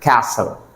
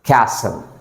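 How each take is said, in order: No difference in how they are said.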